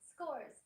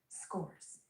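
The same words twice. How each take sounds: First: The word is said at a raised, high pitch. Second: The word is said at an ordinary pitch.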